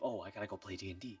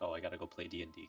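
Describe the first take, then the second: First: It sounds eager and excited, full of energy. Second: It sounds reluctant and bored, like a chore. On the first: Playing is something to look forward to. "instead of" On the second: Playing feels like an obligation. "it becomes more of like a chore, like"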